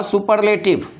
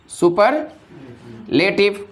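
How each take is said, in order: First: Said in the usual way. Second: superlative broken as super, long pause, लेटिव; split with a pause. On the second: Shown as a demonstration. Teacher prompting students with superlative, split by a long pause after super. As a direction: say super, hold a gap, then finish लेटिव.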